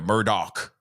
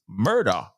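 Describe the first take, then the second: First: The name ends with a 'dock' sound. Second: The name ends with a 'der' sound. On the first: This is how everyone else says the name. The speaker calls it wrong. "everyone's sitting there going, Murdoch" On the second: This is how the man himself says his name. The speaker calls it right. "He pronounced it like murder when he identified himself"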